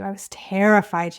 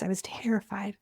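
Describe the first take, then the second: First: Said in the usual way. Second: Breathy whisper, barely voiced; whispered confession. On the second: Real, not acted. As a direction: she whispers to her viewers how scared she was, whispering. Repeats terrified, then whispers it.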